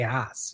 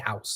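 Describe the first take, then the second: First: The word has an East Coast vowel. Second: The word has a general, standard vowel. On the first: "that's my East Coast speak" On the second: "I don't say house"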